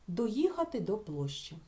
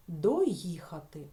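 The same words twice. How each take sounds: First: Said in the usual way. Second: Доїхати said very slowly and a bit louder; teacher isolating the word; slow emphatic demo word. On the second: Shown as a demonstration. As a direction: drag out Доїхати for the class. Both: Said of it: "Чи можемо ми ось тут вставити слово?".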